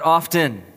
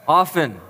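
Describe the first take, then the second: First: Often said with the t sounded, OFF-ten; often as OFF-ten, the mistake; wrong pronunciation. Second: Often said with a silent t, OFF-en; Often with the t left out; correct pronunciation. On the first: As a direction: pronounce the t in often clearly. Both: Shown as a demonstration. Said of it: "not often".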